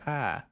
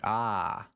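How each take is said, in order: First: The 'ah' sounds thrilled and exhilarated. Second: The 'ah' sounds like sudden understanding. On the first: Someone is having fun on a ride. "like I'm I'm on a roller coaster" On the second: Someone now understands what was said. "I I understand what you're saying to me now?"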